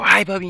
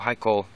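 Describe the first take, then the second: First: It is said in an excited tone. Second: It is said in a calm tone.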